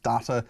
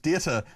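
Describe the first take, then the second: First: "data" said dah-ta, with an open ah in the first syllable; the broad "data": DAH-ta, first vowel as in father. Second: "data" said day-ta, first vowel as in day; the corrected "data": DAY-ta, like day plus ta. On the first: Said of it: "it's pronounced data". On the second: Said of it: "no, sorry, it's pronounced data". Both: Shown as a demonstration.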